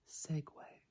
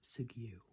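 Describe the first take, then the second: First: The word ends with a 'way' sound. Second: The word ends with a 'you' sound. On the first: The speaker calls it right. "but it is Segway" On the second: The speaker calls it wrong. "Many people pronounce this as segue"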